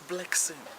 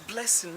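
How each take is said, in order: First: The middle consonant is a ks sound. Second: The middle consonant is a plain s sound. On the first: The speaker calls it wrong. "not blessing" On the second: The speaker calls it right. "It's blessing"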